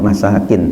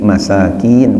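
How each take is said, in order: First: The vowel after the k is said short. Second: The vowel after the k is drawn out long. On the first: It is the plural of 'dwelling'. The speaker calls it wrong. "bukan masakin" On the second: It is the plural of 'poor person'. The speaker calls it right. "ada kapnya, ada panjangnya, yakni masakin"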